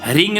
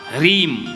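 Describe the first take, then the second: First: The word ends in a nasal ng sound. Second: The word ends in a closed m sound. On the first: The speaker calls it wrong. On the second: The speaker calls it right.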